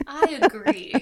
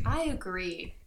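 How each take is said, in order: First: "I agree" called out higher and louder. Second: Said in the usual way. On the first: Shown as a demonstration. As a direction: belt out "I agree" emphatically. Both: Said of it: "I say".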